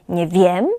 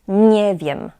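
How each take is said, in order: First: The stress falls on the word wiem. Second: The stress falls on the word nie. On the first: The speaker calls it wrong. "Nie mówimy tutaj" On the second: The speaker calls it right. "Akcent pada na nie"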